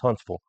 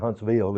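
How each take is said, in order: First: The ending is reduced to a 'vul' sound. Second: The ending is a full 'vill' sound. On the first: The speaker calls it right. "it's Huntsville" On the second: The speaker calls it wrong. "We don't say Huntsville"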